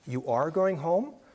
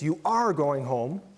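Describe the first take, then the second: First: The voice rises at the end, like a question. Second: It is said firmly, like an order. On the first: It asks whether it is true. "interrogative statements, where the voice is rising at the end of a sentence" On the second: It tells someone to go. "imperative statements"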